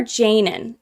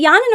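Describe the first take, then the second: First: "Janin" opening on a hard j with an ay vowel; pronunciation with J. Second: "Yanin" opening on a y sound with an ah vowel; pronunciation with Y. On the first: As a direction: say "Janin" as JAY-nin. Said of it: "it was Janin". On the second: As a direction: say "Yanin" as YAH-nin. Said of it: "I heard somebody else pronounce it Yanin". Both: Shown as a demonstration.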